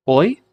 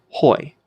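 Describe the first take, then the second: First: "Oi" higher, starting on the bare vowel; smooth breathing. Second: "hoi" with a breath of H before the vowel; rough breathing. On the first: Teacher contrasts both breathings for students, "Oi" without an H. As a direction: say "Oi" with no H, as one half of a contrast. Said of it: "smooth breathing mark has no effect on pronunciation". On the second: Teacher contrasts both breathings for students, "hoi" with an H. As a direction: aspirate "hoi" to set it against oi. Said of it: "gives it sort of an H sound". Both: Shown as a demonstration.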